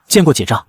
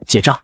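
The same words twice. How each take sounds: First: Mildly strained polite greeting; forced politeness. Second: Mildly irritated insistent address; fed-up raised voice. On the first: Wife greeting an ignored elder in-law with forced politeness. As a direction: greet him with reluctant restraint. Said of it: "李夫人咬着牙行礼". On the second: Ignored wife calling her brother-in-law, fed up and insistent. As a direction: call him with a touch of anger. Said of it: "声音都大了八度". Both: A narrator's reading.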